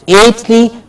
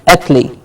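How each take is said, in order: First: "ately" with a full "ate" vowel; full-vowel "ately" ending; wrong ending. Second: "atly" with a short, weak vowel; unstressed short-vowel "atly"; reduced ending. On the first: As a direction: say "ately" with a long, clear AY. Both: Shown as a demonstration. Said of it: "not ately, but atly".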